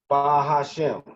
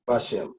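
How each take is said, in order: First: The h sound is kept as separate syllable. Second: The h sound is dropped and syllables merge. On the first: The speaker calls it wrong. "People would say" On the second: The speaker calls it right. "because the hey is assimilated"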